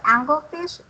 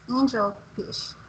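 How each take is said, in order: First: The g is hard, like in angle. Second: The g is soft, like in angel. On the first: The speaker calls it wrong. "What you said was angle, anglefish. So it's not anglefish" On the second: The speaker calls it right. "it's angelfish"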